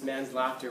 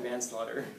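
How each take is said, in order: First: It sounds like the phrase man's laughter. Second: It sounds like the single word manslaughter. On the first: Laughter belonging to a man. "If you just emphasize different syllables, it's man's laughter" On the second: Killing someone without intending to. "rather than manslaughter"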